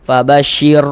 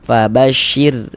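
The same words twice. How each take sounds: First: The final r is heavy, tongue raised. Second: The final r is light, tongue relaxed. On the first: The speaker calls it wrong. "Jangan dibaca fabashir tebal begitu" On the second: The speaker calls it right. "huruf ra sukunnya dibaca tipis"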